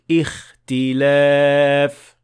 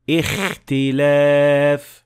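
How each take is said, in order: First: The kh comes from deep, near the throat. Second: The kh is exaggerated and snore-like, near the mouth. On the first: The speaker calls it right. "the sound of kha should be come from much deeper in the mouth" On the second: The speaker calls it wrong. "this mistake is caused by exaggerating the sound of kha way too much"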